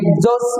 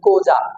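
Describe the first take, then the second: First: It starts with an eks sound. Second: It starts with a k sound. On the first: The speaker calls it wrong. "এটাকে এক্সজস বলে অনেকে, উচ্চারণ যারা জানেন না সঠিক" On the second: The speaker calls it right. "আসলে উচ্চারণ কোজা"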